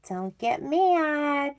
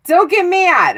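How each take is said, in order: First: High, slow, soft singsong warning; small teasing voice, pitched up; playful soft plea. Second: High, loud burst; loud mock-insistent plea; emphatic playful warning. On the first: Pretend. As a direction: coax them gently, stretched out. Teasing warning before unwelcome news. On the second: Same warning, now forceful.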